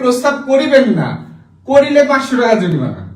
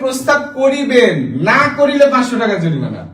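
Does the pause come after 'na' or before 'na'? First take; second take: after na; before na. First: The pause comes right after the word 'na'. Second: The pause comes right before the word 'na'. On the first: Do not propose, or you will be fined. "একজন কমা বসাইছে নায়ের পরে" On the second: You must propose, or you will be fined. "আর একজন কমা বসাইছে নায়ের আগে"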